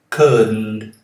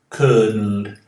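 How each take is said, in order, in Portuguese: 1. O D fica mudo, indo direto para o N. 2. O D fica mudo, indo direto para o N.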